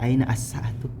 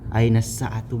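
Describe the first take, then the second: First: The article's vowel is pronounced separately. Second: The words link without the article's vowel. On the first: The speaker calls it wrong. "bukan aina as-sa'atu" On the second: The speaker calls it right. "Aina sa'atu bukan"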